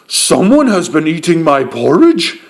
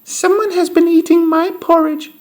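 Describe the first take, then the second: First: A loud, deep, booming big voice. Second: A tiny, high, squeaky voice.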